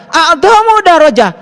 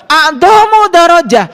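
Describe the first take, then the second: No difference in how they are said.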